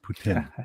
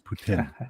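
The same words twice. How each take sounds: First: It is said the way locals pronounce it. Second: The same.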